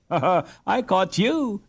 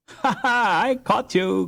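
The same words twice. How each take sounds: First: Put-on higher girlish laugh thrown back; a sister laughing her retort back at her brother. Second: Higher, laughing cry of triumph; a brother laughing as he catches his sister; laughing boast. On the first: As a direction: turn the boast back on him. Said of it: "she retorted". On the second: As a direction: crow as you catch her. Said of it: "cried Hans". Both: A narrator's reading.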